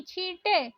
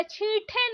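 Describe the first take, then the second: First: छींटे with plain "te"; no puff on t of छींटे; correct pronunciation. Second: छींटे with aspirated "the"; breath puff on t of छींटे; wrong pronunciation. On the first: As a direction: say छींटे as "chheente". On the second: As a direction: say छींटे as "chheenthe". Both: Shown as a demonstration. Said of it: "छींटे नहीं".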